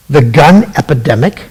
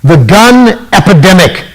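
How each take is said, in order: First: Disbelieving question, rising at the end; incredulous echo. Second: Said in the usual way. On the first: Real, not acted. Host mocking Hillary's phrase to listeners, incredulous. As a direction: repeat "The gun epidemic?" as if it makes no sense. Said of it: "We have an epidemic of the gun?".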